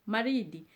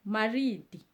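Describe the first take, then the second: Both takes have the same delivery.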